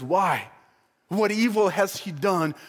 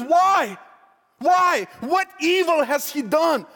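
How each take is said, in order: First: Said in the usual way. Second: Loud, high-pitched exasperated questioning; disbelieving outcry. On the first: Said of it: "when Pilate says". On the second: Acted. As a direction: demand an answer from the crowd, appalled. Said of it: "he can't believe this".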